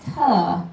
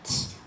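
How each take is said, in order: First: The t sound ends with an added vowel. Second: The t sound is short, with no vowel. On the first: The speaker calls it wrong. "Not tuh" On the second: The speaker calls it right. "just t"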